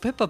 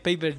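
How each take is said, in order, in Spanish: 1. La primera vocal es un sonido 'eh' corto. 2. La primera vocal es un sonido 'ay' largo. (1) "Fue Peppa Mario y fue como Peppa Pig, fue una cosa muy rara" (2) "Pero no. Es Paper Jam"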